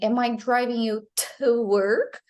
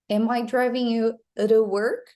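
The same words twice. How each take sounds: First: The t in 'to' is a full t. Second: The t in 'to' is a quick tap. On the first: "instead of saying" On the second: "like a tap sound instead of the the real t or d sound"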